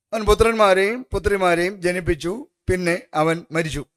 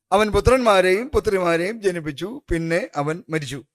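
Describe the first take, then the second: Both takes have the same delivery.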